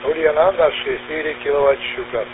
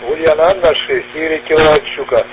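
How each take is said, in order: First: Lower level with the peak crackle mostly gone. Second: Louder level with a metallic crackle on peaks. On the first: The speaker calls it right. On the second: The speaker calls it wrong.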